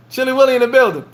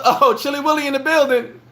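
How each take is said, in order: First: High, sing-song shout-out; hype call. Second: High, laughing excited shout-out; hype call. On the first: Repeating the welcome for Will, high hype call. Friend Will walks into room. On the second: Greeting Will as he walks in, laughing hype call. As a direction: announce him like he just walked on stage. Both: Real, not acted.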